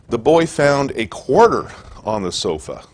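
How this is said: The word quarter is stressed.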